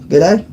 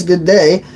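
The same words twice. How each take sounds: First: Aussie g'day with a questioning lift; attempted Australian accent. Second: Said in the usual way. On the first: Shown as a demonstration. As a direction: test out an Australian accent, unsure. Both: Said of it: "Did I get the accent right".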